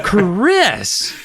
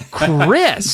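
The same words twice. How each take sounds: First: High, loud laughing shout; mother's shout. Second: Sharp higher shout; mother's shout. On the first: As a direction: scold her daughter, cracking up. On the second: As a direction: scold her daughter. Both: A narrator's reading. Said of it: "Missus Powell shouted".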